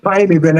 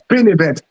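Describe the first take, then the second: First: The first word has a long 'eye' vowel. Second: The first word has a short 'ih' vowel. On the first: The speaker calls it wrong. "most people call it pine event" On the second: The speaker calls it right. "it it is pin event"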